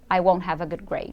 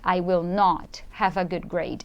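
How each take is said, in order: First: The negative is said plainly without extra force. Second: The negative is said with extra force. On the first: A simple statement of the expected result. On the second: The speaker insists strongly on the negative outcome.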